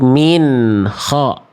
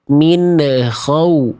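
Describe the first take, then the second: First: The n flows straight into the next sound. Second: The n bounces with a short extra vowel. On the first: The speaker calls it right. "Beresin dulu" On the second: The speaker calls it wrong. "Apa yang menyebabkan ada bunyi ne di situ?"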